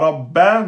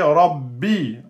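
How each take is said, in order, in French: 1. Le mot se termine par la voyelle a. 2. Le mot se termine par la voyelle i. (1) "c'est pas Rabba" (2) "mais c'est Rabbi"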